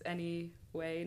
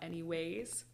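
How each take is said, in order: First: The word ends without an s sound. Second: The word ends with an added s sound. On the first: The speaker calls it right. "It's any way" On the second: The speaker calls it wrong. "not any ways"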